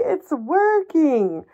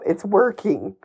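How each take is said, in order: First: "working" sung out high and slow, mock triumphant. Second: Said in the usual way. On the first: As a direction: stretch out it's working, high and gleeful.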